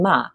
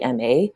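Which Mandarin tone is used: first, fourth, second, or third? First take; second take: fourth; first. First: It is said with the fourth tone. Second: It is said with the first tone. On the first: "and then ma" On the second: "The first tone would be a basic form"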